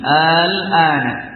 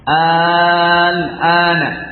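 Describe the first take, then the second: First: The opening hamzah is softened and kept short. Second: The opening vowel is drawn out very long. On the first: "dengan uh, tashil" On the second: "dengan mad dan isbah"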